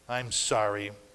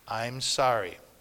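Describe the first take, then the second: The two takes are said the same way.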